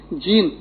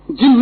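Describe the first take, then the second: First: "جین" with a long ee; long-vowel "gene". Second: "جن" with a short i; short-vowel "jinn". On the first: Teacher clarifying the English term, long-vowelled "جین". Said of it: "جین جس کو انگریزی میں کہتے ہیں". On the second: Teacher ruling out the mistaken word, short-vowelled "جن". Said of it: "جن نہیں، جیم نون نہیں". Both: Shown as a demonstration.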